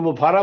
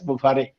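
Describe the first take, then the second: First: The name is said with a long middle, ending 'ra'. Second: The name is said with a long middle, ending 're'. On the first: The speaker calls it wrong. "तो मुफारा बोलते हैं" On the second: The speaker calls it right. "उनका नाम actual है S मुफारे"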